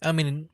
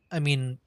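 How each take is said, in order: Both takes have the same delivery.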